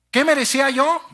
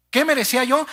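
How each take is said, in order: Both takes have the same delivery.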